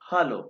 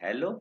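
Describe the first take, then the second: First: The first vowel sounds like 'a' in 'father'. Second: The first vowel sounds like 'e' in 'hello'. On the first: The speaker calls it right. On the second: The speaker calls it wrong. "It is not हेलो"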